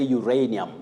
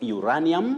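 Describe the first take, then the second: First: The first syllables glide like 'you-ray'. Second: The first syllables lack the 'you-ray' glide. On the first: The speaker calls it right. "you say uranium" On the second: The speaker calls it wrong. "What we should avoid"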